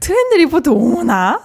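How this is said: It is read in a playful, fun way.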